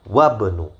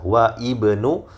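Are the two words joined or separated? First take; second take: joined; separated. First: The words are joined, with the vowel of ibnu dropped. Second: The words are separated, with the vowel of ibnu said. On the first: "namun yang lebih fasih tentu saja ya" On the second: "Tidak masalah kalau mau dipisah"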